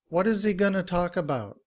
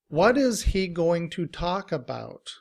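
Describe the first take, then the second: First: Several words blend into reduced forms. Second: Each word is said fully and separately.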